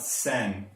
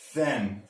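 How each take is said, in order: First: It begins with a hissing s sound. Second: It begins with a soft th sound. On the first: The speaker calls it wrong. "not sen" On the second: The speaker calls it right.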